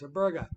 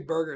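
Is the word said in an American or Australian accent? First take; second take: Australian; American. First: It is said in an Australian accent. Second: It is said in an American accent. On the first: The speaker calls it right. "it's a burger" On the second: The speaker calls it wrong. "You don't say burger"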